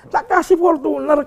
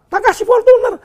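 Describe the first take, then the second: First: Said in the usual way. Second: Tak kasih Fortuner much higher and louder, Fortuner hit hard; indignant outburst. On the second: Real, not acted. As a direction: burst out in disbelief at what he gave. Indignant father listing gifts.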